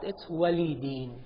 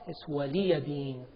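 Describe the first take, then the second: First: Wali runs straight into deen, no extra syllable. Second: An extra 'ya' syllable is voiced before deen. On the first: "In some of the qira'at, it's wali deen" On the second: "But in Hafs, it's waliya deen"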